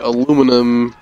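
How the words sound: The word is said the American way. This is how it is said locally. "here we say aluminum"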